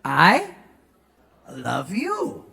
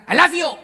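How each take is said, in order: First: Tender English way; proper soft tune. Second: Loud, higher, blunt I love you; mock blunt English; wrong loud way. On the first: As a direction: lower and softer I love you. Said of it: "Nadanya harus". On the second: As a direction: blurt I love you at them. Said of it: "nggak bisa bilang". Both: Shown as a demonstration.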